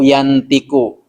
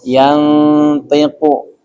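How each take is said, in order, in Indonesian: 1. Nasal-nya adalah n yang jelas sepenuhnya sebelum t. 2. Nasal-nya berbunyi samar, hanya mendekati n. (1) "atau yantiku" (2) "tapi dibacanya mendekati huruf n"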